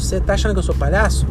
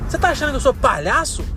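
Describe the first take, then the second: First: It is said in a plain, neutral tone. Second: It is said in an angry, indignant tone. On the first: The speaker calls it wrong. "Você fala assim, é uma coisa" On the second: The speaker calls it right. "eu mudei a entonação e coloquei a, na voz o sentimento"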